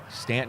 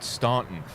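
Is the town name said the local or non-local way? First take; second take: local; non-local. First: The name is said the way locals say it. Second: The name is said the way outsiders say it. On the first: The speaker is from the area. The speaker calls it right. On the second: The speaker is not from the area. The speaker calls it wrong.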